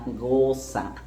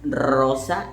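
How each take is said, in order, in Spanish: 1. La r se hace atrás, en la garganta. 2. La r se vibra con la punta de la lengua.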